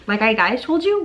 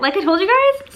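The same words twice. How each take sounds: First: "Like I guys told you?" with the words jumbled; tripping over "guys told you"; flubbed words. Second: "Like I told you guys?" said in the right order, rising high; fixing it to "I told you guys"; corrected line. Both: Real, not acted.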